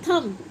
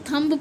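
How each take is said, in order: First: थंब ending on m, b silent; correct silent b. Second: थंब with the b sounded; mispronounced thumb. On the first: Teacher giving the right word, b dropped. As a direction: hum थंब shut without any b. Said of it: "इसे बोला जाएगा". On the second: Teacher quoting children's misreading, final b voiced. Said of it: "थंब नहीं पढ़ा जाता". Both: Shown as a demonstration.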